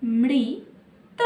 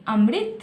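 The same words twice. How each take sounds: First: Amrit said slowly, syllable by syllable; slowed to syllables. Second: Said in the usual way. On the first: Shown as a demonstration. Teacher demonstrating a three-letter word to children, slowly. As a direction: draw Amrit out for the class. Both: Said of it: "तीन अक्षर में क्या है?".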